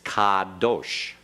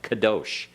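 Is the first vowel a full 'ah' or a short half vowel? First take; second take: full ah; half vowel. First: The first vowel is a full, clear 'ah'. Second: The first vowel is a short, reduced half vowel. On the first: The speaker calls it right. "Make sure you get that ah in there very clearly" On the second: The speaker calls it wrong. "it sounded like you were making a short half vowel, like"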